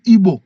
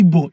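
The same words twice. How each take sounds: First: "Igbo" with a deliberate gb in the middle; corrected pronunciation. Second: "Igbo" with the gb eased to a plain b, "Ibo"; habitual mispronunciation. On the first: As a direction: consciously sound the gb in "Igbo". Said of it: "have to be conscious to pronounce it". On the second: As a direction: let "Igbo" slip out as "Ibo". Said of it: "it comes naturally when I say Igbo". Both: Shown as a demonstration.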